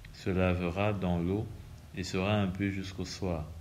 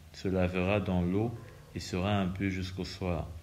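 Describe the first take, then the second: No difference in how they are said.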